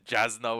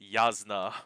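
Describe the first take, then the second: First: The name begins with a J sound. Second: The name begins with a Y sound. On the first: The speaker calls it wrong. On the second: The speaker calls it right.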